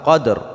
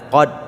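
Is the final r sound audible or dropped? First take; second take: audible; dropped. First: The word ends with a clearly audible r. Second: The word ends without any r sound. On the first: The speaker calls it right. "tapi harus nampak qadr" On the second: The speaker calls it wrong. "jangan qad"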